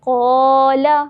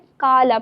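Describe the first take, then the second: First: The first syllable is full and heavy. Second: The first syllable is thin and light. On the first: The speaker calls it right. "किस तरह पढ़ेंगे?" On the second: The speaker calls it wrong. "गलती करके हम क्या पढ़ते हैं? काला पढ़ते हैं। तो ये बिल्कुल गलत है"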